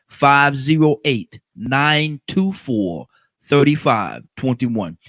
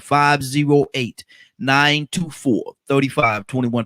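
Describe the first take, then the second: First: The number is said slowly. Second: The number is said quickly.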